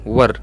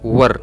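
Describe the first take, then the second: First: The word sounds like 'wur'. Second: The same.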